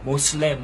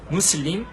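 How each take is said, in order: First: The first vowel is 'o', the second 'e'. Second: The first vowel is 'oo', the second 'ee'. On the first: This is an Americanized English form. The speaker calls it wrong. "자기들 영어 발음대로 한 거예요" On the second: This is the original Arabic form. The speaker calls it right. "아랍어 무슬림"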